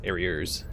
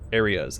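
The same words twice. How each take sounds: First: "areas" ending in an r-coloured "-ers"; mispronounced "areas". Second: Said in the usual way. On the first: Shown as a demonstration. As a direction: slip an R into the end of "areas". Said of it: "That's not a word". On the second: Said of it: "I think I said areas".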